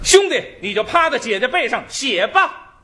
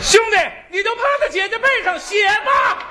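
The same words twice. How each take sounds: First: It is said higher with more intense emotion. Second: It is said at a very high, shrill pitch.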